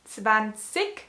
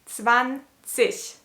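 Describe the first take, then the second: First: The word ends with a hard g sound. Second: The word ends with a soft ich sound. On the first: This is how some regional dialects say it. "in some dialects they actually do say zwanzig" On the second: This is the standard way to say it. "in standard German it's pronounced like zwanzig"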